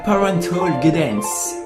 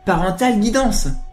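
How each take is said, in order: First: It is said with an English accent. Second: It is said with a French accent.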